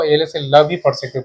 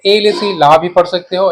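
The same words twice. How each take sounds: First: ल with a short "luh" vowel; short-vowel pronunciation. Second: ला with a long "laa" vowel; long-vowel pronunciation. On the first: Teacher gives students the alternative reading, ल with short a. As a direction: keep ल brief, without stretching it to "laa". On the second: Teacher gives students one possible reading, ला with long aa. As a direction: open and lengthen the vowel in ला. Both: Shown as a demonstration. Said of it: "English में pronunciation है".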